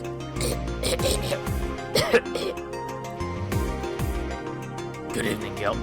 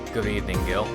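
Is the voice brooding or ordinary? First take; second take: brooding; ordinary. First: It is said in a dark, brooding voice. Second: It is said in an ordinary voice. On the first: The speaker calls it right. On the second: The speaker calls it wrong.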